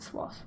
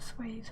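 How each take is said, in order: First: It ends in a voiceless 'th' sound. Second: It ends in a voiced 'th' sound. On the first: The speaker calls it wrong. "Some people do pronounce it swath" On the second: The speaker calls it right. "but no, it's it's a swathe"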